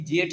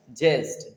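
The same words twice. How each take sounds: First: जेठ said the clipped rustic way instead of ज्येष्ठ; rustic dialect form जेठ, not ज्येष्ठ; village pronunciation. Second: ज्येष्ठ said fully with the clear ज्य and ष्ठ clusters; teacher models the correct word ज्येष्ठ; correct pronunciation. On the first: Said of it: "बिगाड़ के बोलते हैं". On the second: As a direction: pronounce ज्येष्ठ the proper standard way. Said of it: "उसका right answer क्या है". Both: Shown as a demonstration.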